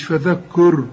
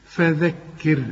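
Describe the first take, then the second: First: فذكر with the dh clearly voiced, feðeker, slowly; فذكر said slowly with tongue out on dh; correct fadhker. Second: فذكر said with open a and u, feðakur; فذكر mispronounced as fadhakur; wrong fadhakur. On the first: (فذكر بنطق صحيح وذال واضحة) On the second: (فذكر بنطق خاطئ) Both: Shown as a demonstration. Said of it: "شوف، مش فذكر".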